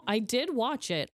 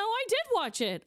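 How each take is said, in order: First: Said in the usual way. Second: Did pitched high and stressed; I DID watch it, with did rising high and hit hard. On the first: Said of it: "Oh my God". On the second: Real, not acted. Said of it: "No, no, no".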